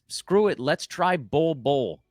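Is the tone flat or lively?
flat. It is said in a flat, resigned tone.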